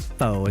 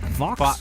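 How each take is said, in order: First: The final x is silent. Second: The final x is pronounced as ks. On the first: The speaker calls it right. "you just say faux. It's like a silent X on there" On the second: The speaker calls it wrong. "when William would read it, he'd be like Fox"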